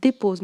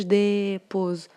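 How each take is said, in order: First: Said in the usual way. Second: "dépose" with the first vowel stretched long; wrong drawn-out pronunciation. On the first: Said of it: "شوفوا كيفاش نطقناها". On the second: Shown as a demonstration. Teacher showing pupils how not to say it, "dépose" with an over-long first vowel. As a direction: drag out the "dé" in "dépose", then finish normally. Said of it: "ما قلناش".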